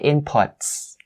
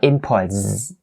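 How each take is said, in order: First: The word ends with a voiceless s sound. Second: The word ends with a voiced z sound. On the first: The speaker calls it right. "you say inputs" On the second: The speaker calls it wrong. "not inputs"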